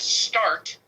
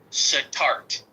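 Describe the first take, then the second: First: The S runs straight into the T. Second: A short vowel sounds between S and T. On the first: "start would be a silent schwa" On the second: "That would be a pronounced schwa"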